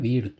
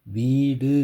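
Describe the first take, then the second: First: வீடு with long ee and a quick, reduced final u; shortened final u. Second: வீடு said loud with the ending drawn into a full oo; wrongly full u. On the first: Teacher showing the correct வீடு, short final u. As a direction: let the டு of வீடு fall away short. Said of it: "அப்படின்னு உச்சரிப்பீங்க". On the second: Teacher showing how not to say வீடு, over-full final u. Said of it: "அப்படின்னு உச்சரிக்காம". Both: Shown as a demonstration.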